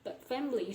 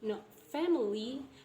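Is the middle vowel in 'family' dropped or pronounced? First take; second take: dropped; pronounced. First: The middle vowel is dropped. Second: The middle vowel is fully pronounced. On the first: The speaker calls it right. "the deletion of I sound" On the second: The speaker calls it wrong.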